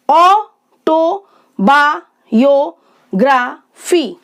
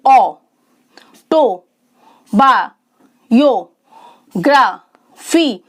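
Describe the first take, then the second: First: autobiography in six slow beats with short gaps; syllable by syllable. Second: autobiography very slow, long pause after each syllable; widely separated syllables. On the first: Teacher introducing an example, autobiography slowly split by syllable. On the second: Teacher having learners count, autobiography with long gaps between syllables. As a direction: stretch autobiography into six isolated beats. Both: Shown as a demonstration. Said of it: "छह sound हो गई".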